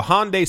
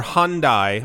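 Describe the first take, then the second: First: Hyundai with a final syllable rhyming with day; Hyundai as HON-day. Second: Hyundai ending to rhyme with eye; Hyundai as HUN-dye. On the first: Offers alternative pronunciations of the name. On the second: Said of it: "depending on where you are". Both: Shown as a demonstration.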